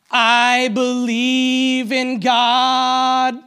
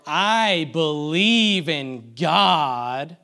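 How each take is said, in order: First: Sung, high, loud, long-held mock hit song; sung, belt it slowly like a parody worship chorus; stretched out, sung. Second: Slow, drawn-out spoken mock creed; sarcastic tone. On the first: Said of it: "just stretch it out a little bit". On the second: Preacher asking if this sounds like worship, sarcastic. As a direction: stretch each word loudly with insincere weight. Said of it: "in this tone of voice". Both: Shown as a demonstration.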